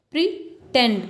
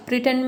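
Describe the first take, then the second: First: "प्रीटेंड" split, stress landing on "tend"; second-syllable stress. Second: Said in the usual way. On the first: Shown as a demonstration. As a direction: pause after "pre", then hit "tend" in "प्रीटेंड". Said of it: "tend में आपको second में stress दिख जाएगा". ("प्रीटेंड" के "tend" पर ज़ोर) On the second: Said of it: "second में आपको दिखेगा".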